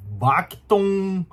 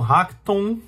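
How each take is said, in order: First: The name begins with a B sound. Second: The name begins with an H sound. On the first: "tem um som meio de B" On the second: "ou de H"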